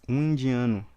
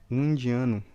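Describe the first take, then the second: No difference in how they are said.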